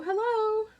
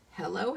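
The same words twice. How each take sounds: First: Hello sung out much higher and louder; playful high hello. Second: Said in the usual way. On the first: Shown as a demonstration. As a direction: chirp "hello" up high and bright. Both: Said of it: "I stamped the hello, hello, hello".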